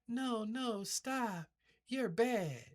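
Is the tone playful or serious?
playful. It is said in a playful, flirty tone.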